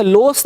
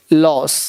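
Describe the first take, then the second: First: लॉस said as 'lohs' with a round O; wrong pronunciation. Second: लॉस with an open 'aw', lower and falling; correct pronunciation. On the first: Teacher showing students the mistake, wrong pronunciation. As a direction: give लॉस a pure 'oh' vowel. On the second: Teacher correcting the O sound, correct pronunciation. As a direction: say लॉस as 'lawss'. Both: Shown as a demonstration. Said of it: "लेकिन बोलेंगे लॉस नहीं".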